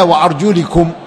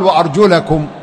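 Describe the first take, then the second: First: The vowel after 'arjul' is an 'i' sound. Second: The vowel after 'arjul' is an 'a' sound. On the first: The feet are joined to the heads and are wiped. The speaker calls it wrong. "ولم يقل الله تعالى" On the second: The feet are joined to the hands and are washed. The speaker calls it right. "وإنما قال"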